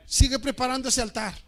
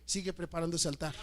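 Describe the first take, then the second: First: Warning shout. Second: Said in the usual way. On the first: Shown as a demonstration.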